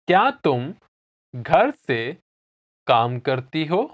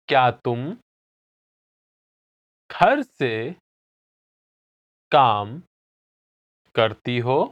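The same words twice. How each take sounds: First: It is said at normal speed. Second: It is said slowly.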